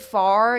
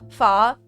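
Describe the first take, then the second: First: The final R sound is clearly pronounced. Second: The final R sound is dropped. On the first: "You guys use the R sound" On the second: "Like I say ka, fa"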